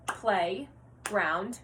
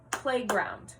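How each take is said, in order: First: "playground" broken into play, pause, ground; segmented syllables. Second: Said in the usual way. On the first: Shown as a demonstration. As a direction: separate both halves of "playground" for counting. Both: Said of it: "combining and segmenting syllables".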